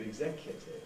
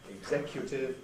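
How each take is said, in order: First: The 'u' syllable has a schwa vowel. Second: The 'u' syllable has a weak 'oo' vowel. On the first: "changing to" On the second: "the U ... is gradually changing to schwa"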